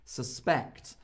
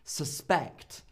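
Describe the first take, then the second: First: The stress is on the second syllable. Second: The stress is on the second syllable.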